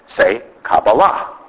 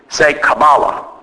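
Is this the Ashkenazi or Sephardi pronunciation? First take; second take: Sephardi; Ashkenazi. First: It is said with the Sephardi pronunciation. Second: It is said with the Ashkenazi pronunciation.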